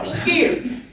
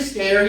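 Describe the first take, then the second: First: The vowel sounds like the one in ear. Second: The vowel sounds like the one in air. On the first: This is how the old general would say it. "He would say skier. S K E E R" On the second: This is the standard pronunciation. "he would never say scare"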